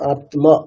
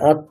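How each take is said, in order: First: The m sound in the cluster is clearly pronounced. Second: The m sound in the cluster is assimilated. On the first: This is how it is said in Sanskrit. The speaker calls it right. "আমরা সংস্কৃতে কি বলবো? আত্মা" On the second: This is how it is said in Bengali. The speaker calls it wrong. "আত্ম না"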